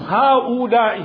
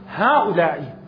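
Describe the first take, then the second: First: The vowel after the hamza is long. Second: The vowel after the hamza is short. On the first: The speaker calls it wrong. "مو هؤلاء" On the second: The speaker calls it right. "فصاحت صارت هؤلاء"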